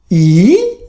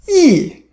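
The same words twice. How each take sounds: First: It is said with the third tone. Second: It is said with the fourth tone. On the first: "Third tone" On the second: "Fourth tone"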